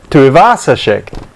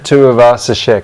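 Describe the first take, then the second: First: The 'vasa' part is given extra stress. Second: The 'vasa' part is not given extra stress. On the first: "He puts the emphasis on the Vasa" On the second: "everybody in the N R L universe pronounces it"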